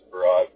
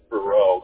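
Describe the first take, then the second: First: The name ends with a t or d sound. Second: The name ends without a t or d sound. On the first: This is how most people say the name. The speaker calls it wrong. "Everyone just says Farad" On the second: This is how the family says the name. The speaker calls it right. "but it's Farrell"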